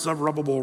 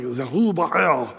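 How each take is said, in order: First: Said in the usual way. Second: "Zerubbabel" attempted in a foreign-sounding pronunciation; attempted correct pronunciation. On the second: Shown as a demonstration. Preacher trying the name he's told he gets wrong, attempted correct pronunciation of "Zerubbabel". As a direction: have a loose go at the original-language sound of "Zerubbabel". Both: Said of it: "I pronounced Zerubbabel wrong".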